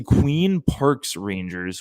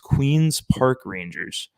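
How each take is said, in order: First: The s sound comes after Park, not Queen. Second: The s sound comes after Queen, not Park. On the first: The speaker calls it wrong. "I always say Queen Parks Rangers" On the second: The speaker calls it right. "when it's Queens Park Rangers"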